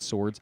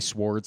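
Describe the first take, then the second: First: The W sound is left silent. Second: The W sound is pronounced at the start. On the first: The speaker calls it wrong. "not swords" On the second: The speaker calls it right. "I say swords"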